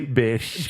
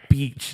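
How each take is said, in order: First: The vowel is short, as in 'bish'. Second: The vowel is long, as in 'beach'. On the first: "they say bish" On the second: "they don't say beach"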